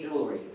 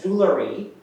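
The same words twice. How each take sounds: First: The word is said with two syllables. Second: The word is said with three syllables. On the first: It is the American form. The speaker calls it right. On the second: It is the British form. The speaker calls it wrong.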